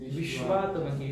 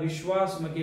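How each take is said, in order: First: The middle is said with a t sound. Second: The middle is said with an s sound. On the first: The speaker calls it right. "विश्वास नाही, विश्वात्मके देवे" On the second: The speaker calls it wrong. "बरेच जण आता विश्वासमके म्हणतात"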